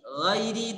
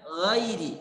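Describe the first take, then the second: The two takes are said the same way.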